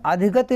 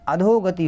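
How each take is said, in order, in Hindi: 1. दूसरा अक्षर 'dhi' की तरह बोला जाता है। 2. दूसरा अक्षर 'dho' की तरह बोला जाता है। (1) "नहीं होता" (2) "होता है"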